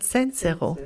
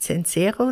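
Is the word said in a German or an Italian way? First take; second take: Italian; German. First: The word is said with an Italian pronunciation. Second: The word is said with a German pronunciation. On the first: The speaker calls it right. "sondern Zenzero" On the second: The speaker calls it wrong. "es heißt nicht Zenzero"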